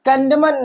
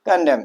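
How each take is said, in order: First: The word ends with an audible n sound. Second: The word ends on m with no n. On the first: The speaker calls it wrong. "कंडमन नहीं पढ़ते हम इसे" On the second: The speaker calls it right. "कंडम पढ़ते हैं"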